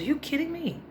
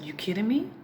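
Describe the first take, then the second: First: Surprised. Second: Said in the usual way. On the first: Retold or imitated. Mother reacts to son.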